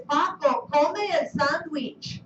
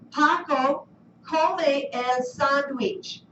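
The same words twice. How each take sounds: First: Paco come el sandwich spoken a little slowly; model command. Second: Paco come el sandwich spoken very slowly; slow model sentence. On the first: Teacher quoting command to class, slightly slowed. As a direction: repeat the model command carefully. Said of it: "Our command here is". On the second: Teacher reading model sentence slowly to class. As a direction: read Paco come el sandwich at half speed. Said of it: "here's our model". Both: Shown as a demonstration.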